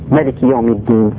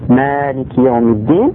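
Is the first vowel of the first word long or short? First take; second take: short; long. First: The first vowel 'ma' is kept short. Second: The first vowel 'ma' is drawn out long. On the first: "sans prolonger ma" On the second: "en prolongeant donc ma du début"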